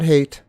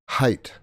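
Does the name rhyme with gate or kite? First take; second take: gate; kite. First: The vowel sounds like the one in gate. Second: The vowel sounds like the one in kite. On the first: The speaker calls it wrong. "not hate" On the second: The speaker calls it right. "it's height"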